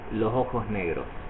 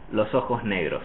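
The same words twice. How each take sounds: First: The s before ojos and negros sound like h. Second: Only the s before negros sounds like h. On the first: "the other S be, before the O of ojos will also look like an H" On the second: "the S before the N will be aspirated... like an English H"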